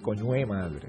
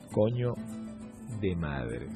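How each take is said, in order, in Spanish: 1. La frase se dice de forma casual, al estilo venezolano. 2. La frase se dice con cuidado, palabra por palabra. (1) "Se dice coño de madre. Esa sería la expresión utilizada por el venezolano" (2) "no se dice así"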